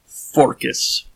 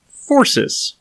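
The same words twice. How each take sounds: First: A hint of a Greek accent on Forcus. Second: Forces said high and bright like a woman's voice; American woman reading. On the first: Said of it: "very heavy Greek accent". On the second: Retold or imitated. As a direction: read the name like an American lady. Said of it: "very American-sounding woman".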